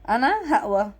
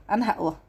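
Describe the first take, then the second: First: Louder, stress on أنا, insisting; firm resolve. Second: Said in the usual way. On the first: Real, not acted. Vlogger insisting to viewers she will be strong, louder. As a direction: say أنا هقوى as a determined vow.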